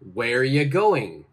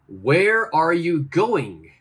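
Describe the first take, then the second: First: 'Are you' is joined into one short sound. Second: Every word is said fully and separately.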